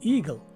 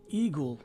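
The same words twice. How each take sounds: First: The last syllable has a short, weak vowel. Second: The last syllable has a long O vowel. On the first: The speaker calls it right. "with a short or swas sounding letter E" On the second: The speaker calls it wrong. "a long O sound"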